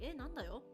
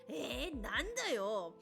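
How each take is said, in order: First: The phrase is said in a soft, gentle way. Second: The phrase is said in a harsh, rough way. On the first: This is the ordinary everyday way of saying it. "typically they're like" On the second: The speaker wants to sound tough like a gangster. "they're being extremely harsh because they just want to sound harsh"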